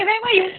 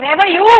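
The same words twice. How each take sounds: First: Simple question, weight on where; stress on where. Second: "where were you" rising to a strong YOU; stress on you. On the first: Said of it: "मैं where पे stress दे रही हूँ". ("where were you" में where पर ज़ोर) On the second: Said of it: "I am stressing you". ("where were you" में you पर ज़ोर) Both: Shown as a demonstration.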